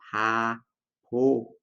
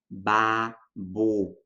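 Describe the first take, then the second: First: Both consonants are pronounced as weak P sounds. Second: Both consonants are pronounced as B sounds. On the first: "com dois sons de P fraco" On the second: "babo com dois sons de B"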